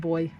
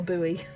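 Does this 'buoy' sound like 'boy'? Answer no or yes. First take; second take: yes; no. First: It sounds exactly like the word boy. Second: It does not sound like the word boy. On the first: The speaker calls it right. "it's pronounced the same way" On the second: The speaker calls it wrong. "It's not a"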